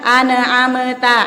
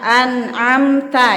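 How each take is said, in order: First: An extra e vowel follows the n. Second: No extra vowel is added after the n. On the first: The speaker calls it wrong. "jangan ane amta ane ane ne nya itu dihilangkan" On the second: The speaker calls it right. "baru na an an amta"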